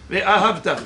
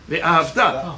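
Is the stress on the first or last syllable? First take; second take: first syllable; last syllable. First: The stress is on the first syllable. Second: The stress is on the last syllable. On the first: It tells a story about the past. The speaker calls it wrong. "l'accent tonique au début du mot, c'est une histoire" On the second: It is a command. The speaker calls it right. "c'est à la fin du mot. Pourquoi? Parce que c'est un ordre"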